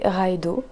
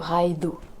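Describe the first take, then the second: First: The middle consonant is a plain d sound. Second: The middle consonant is a soft th sound. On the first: The speaker calls it wrong. "je la prononce très mal" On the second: The speaker calls it right. "le D H ça se prononce comme le T H anglais, donc ce serait plutôt Raido"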